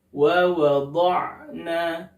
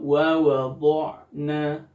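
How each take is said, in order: First: The lips stay unrounded on the dhad sound. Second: The lips are rounded on the dhad sound. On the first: The speaker calls it right. "tanpa membulatkan kedua bibir" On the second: The speaker calls it wrong. "dengan membulatkan bibir ketika huruf dhad berharokat fathah atau kasrah"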